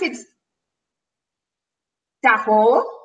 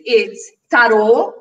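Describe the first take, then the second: First: It is said with a French pronunciation. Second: It is said with a Portuguese pronunciation. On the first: "In French" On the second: "In Portuguese"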